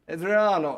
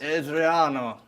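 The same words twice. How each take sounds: First: It is said in a different character's voice. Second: It is said in the god character's voice.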